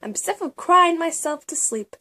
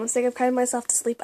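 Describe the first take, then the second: First: Breathy whisper while reading aloud. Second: Said in the usual way. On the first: Acted. Reading her journal to viewers, whispered. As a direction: hush it like a confession.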